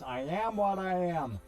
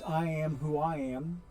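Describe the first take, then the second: First: It is said in a Popeye voice. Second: It is said in his normal voice.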